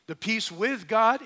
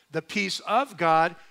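First: WITH punched higher, setting up a contrast; emphatic "with", marking the first kind of peace; stress on WITH. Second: Slow, emphatic "of", marking the second kind of peace; stress on OF. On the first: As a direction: hit the word "with" in the phrase. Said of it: "emphasize the word with". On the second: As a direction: hit the word "of" in the phrase. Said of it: "It's the peace of". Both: Shown as a demonstration.

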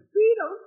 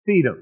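First: Squeaky falsetto disbelief; incredulous echo. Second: Said in the usual way. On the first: Acted. Disciples stunned at being told to feed thousands, incredulous squeak. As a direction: echo it far up high, astonished.

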